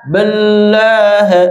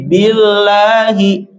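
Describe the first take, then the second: First: The word ends on the h consonant. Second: The word ends with a final i vowel. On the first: The speaker calls it wrong. "bukan billah" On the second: The speaker calls it right. "tapi billahi"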